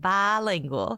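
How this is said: The word is said in a Southern accent. "you're saying it with a southern accent"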